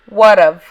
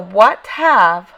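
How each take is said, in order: First: The words are reduced and run together. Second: Both words are said fully and separately.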